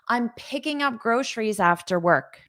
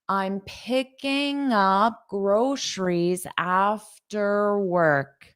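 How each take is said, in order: First: It is said at a normal speaking speed. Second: It is said slowly and carefully.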